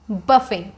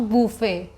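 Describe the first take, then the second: First: "buffet" said as BUH-fay; short uh in "buffet", BUH-fay; correct pronunciation. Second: "buffet" said as BOO-fay; long oo in "buffet", BOO-fay; wrong pronunciation. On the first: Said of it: "this is buffet". ("buffet" का सही उच्चारण, बफ़े) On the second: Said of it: "not buffet". ("buffet" का गलत उच्चारण, बूफ़े) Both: Shown as a demonstration.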